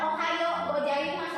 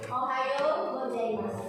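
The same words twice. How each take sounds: First: Some sounds are swallowed and not clearly pronounced. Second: Every sound is pronounced clearly and fully. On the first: The speaker calls it wrong. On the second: The speaker calls it right. "harus eh, kebaca hurufnya ya"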